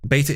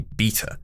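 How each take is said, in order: First: It is said with an American pronunciation. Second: It is said with a British pronunciation. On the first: "Beta is the American pronunciation" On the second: "English pronunciation should be beta"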